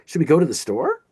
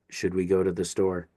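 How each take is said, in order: First: The voice rises at the end. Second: The voice does not rise at the end.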